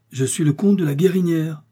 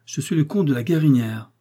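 First: Repeated higher and louder, insisting; the count raising his voice to be heard; offended count repeating his title louder. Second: Said in the usual way. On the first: Acted. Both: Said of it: "répéta celui-ci plus haut".

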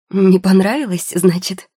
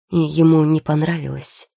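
First: Громко и выше, с возмущением переспросить; переспросить услышанное с вызовом, громко; возмущённый переспрос. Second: Said in the usual way. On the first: A narrator's reading. (возмущённо переспрашивая)

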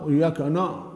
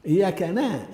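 First: "وإياك نا-" cut off on a dark "no"; heavy nun. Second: "إياك نا" ending on a thin front "naa"; light nun. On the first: Teacher showing the mistake, heavy nun. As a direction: thicken the "نا-" after "وإياك". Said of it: "يضخم النون". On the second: Teacher correcting the error, thinned nun. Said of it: "ترقيقها". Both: Shown as a demonstration.

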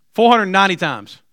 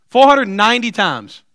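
First: Said in the usual way. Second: Four hundred ninety times, slow and louder, each word weighted; slow emphatic repeat. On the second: Shown as a demonstration. Jesus answering Peter, slow and emphatic. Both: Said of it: "repeats with emphasis".

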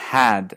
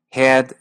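First: "had" with a Windsor, Canadian open a; Windsor pronunciation. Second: "had" with a raised Detroit a, towards "hed"; Detroit pronunciation. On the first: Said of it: "se dice had en Windsor". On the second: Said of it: "had en Detroit". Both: Shown as a demonstration.

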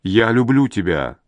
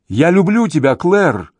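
First: Understated tender confession; quiet, tender restraint; soft, gentle. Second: High, pleading call; raised-pitch impassioned cry; shouted declaration. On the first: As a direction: say it gently, without any force. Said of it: "отвечает она мягко". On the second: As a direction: call it up to someone out of reach. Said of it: "кричит он ей". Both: A narrator's reading.

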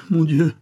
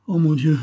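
First: The repeated "mon Dieu" pitched high and louder; distressed echo. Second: A high, louder anguished "Oh mon Dieu"; distressed cry. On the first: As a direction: repeat "mon Dieu" higher still, in anguish. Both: A narrator's reading. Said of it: "murmura-t-elle".

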